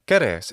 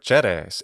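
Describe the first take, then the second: First: It uses the classical Latin pronunciation. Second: It uses the ecclesiastical Latin pronunciation. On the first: "the classical Latin pronunciation" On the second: "in the ecclesiastical pronunciation"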